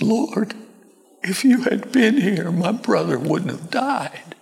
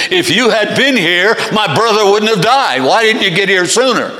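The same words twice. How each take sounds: First: High, thin, grieving plea; tearful-sounding reproachless grief; different, sorrowful tone. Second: Loud, high, accusing outburst; upset, reproachful demand; Martha's rebuke. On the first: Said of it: "probably a different tone of voice". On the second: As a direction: scold him with raised voice. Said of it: "It's a rebuke from Martha to Jesus". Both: Acted.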